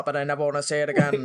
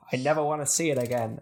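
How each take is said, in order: First: Fast, lower deadpan line. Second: Flat line with no emotion; deadpan. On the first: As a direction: rattle it off with no emotion. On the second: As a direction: say it without any feeling. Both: Retold or imitated. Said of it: "no emotion to it".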